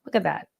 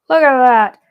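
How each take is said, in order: First: Said in the usual way. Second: Loud, thrilled outburst; excited exclamation. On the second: Real, not acted. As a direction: belt it out in amazement. Delighted repeat as the piece works.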